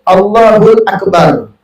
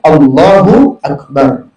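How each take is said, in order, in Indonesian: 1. Bunyi L menghubungkan kedua kata. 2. Kedua kata bersambung tanpa bunyi tambahan. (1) "hul hul, tidak batal, masih dimaafkan" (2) "itu yang benar ya"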